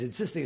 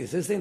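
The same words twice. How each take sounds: First: Said in the usual way. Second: Insisting repeated, pitched up with a rising end; emphatic repeat. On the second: Shown as a demonstration. Narrator stressing how hard the father insisted, rising repeat. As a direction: lift the second insisting to stress it. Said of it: "He's insisting".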